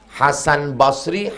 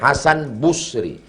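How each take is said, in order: First: The first syllable of Basri has an a vowel. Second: The first syllable of Basri has a u vowel.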